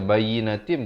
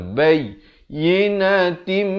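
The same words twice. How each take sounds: First: The 'y' sound is short and single. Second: The 'y' sound is doubled and pressed. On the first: The speaker calls it wrong. "jangan baca bayyinatim" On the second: The speaker calls it right. "ya itu bersabdu, mesti tekankan"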